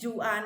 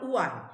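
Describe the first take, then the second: First: The name begins with a J sound. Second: The name begins without a J sound. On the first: The speaker calls it wrong. "ജുആൻ അല്ല" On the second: The speaker calls it right. "ജ് സൈലന്റ് ആണ് അവിടെ, ഹ് എച്ച് ആണ് അവിടെ"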